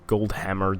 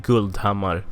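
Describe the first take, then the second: First: The name is said with English sounds. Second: The name is said with Swedish sounds. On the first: "if we're gonna uh, anglify that" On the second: "it's actually Guldhammar"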